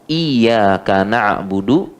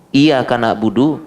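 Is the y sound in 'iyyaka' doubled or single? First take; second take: doubled; single. First: The y sound in iyyaka is held and doubled. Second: The y sound in iyyaka is short and single. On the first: It means: you alone we worship. The speaker calls it right. "pakai tasydid ya" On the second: It means: sunlight we worship. The speaker calls it wrong. "tapi kalau tidak pakai tasydid"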